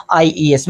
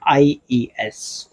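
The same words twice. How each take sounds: First: Said in the usual way. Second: "IES" drawn out slowly, letter by letter; slow spelling. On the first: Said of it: "क्या जुड़ जाएगा?". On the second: Shown as a demonstration. Teacher slowly spelling the ending for students, unhurried. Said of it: "में क्या जुड़ेगा?".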